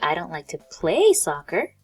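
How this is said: The word play is clearly emphasized.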